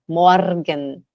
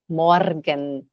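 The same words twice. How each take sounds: First: The R is pronounced strongly, pulled and rolled. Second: The R is pronounced strongly, pulled and rolled.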